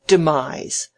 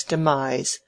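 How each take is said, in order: First: Loud, scornful "demise", falling; mocking echo. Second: Said in the usual way. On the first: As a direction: exclaim "demise" as a ridiculous fancy word. Mocking echo of letter word.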